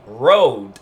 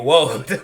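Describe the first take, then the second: First: The word begins with a clear R sound. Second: The word begins with a W sound. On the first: This is how the speaker intended the word. The speaker calls it right. "in my head it sounds like I'm saying road" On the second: This is how listeners actually heard the word. The speaker calls it wrong. "they're hearing woad"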